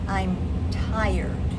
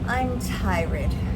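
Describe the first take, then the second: First: The ending is a plain d with no syllable. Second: The ending is said as an extra id syllable. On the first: The speaker calls it right. "But that's not correct" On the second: The speaker calls it wrong. "I hear incorrectly all the time"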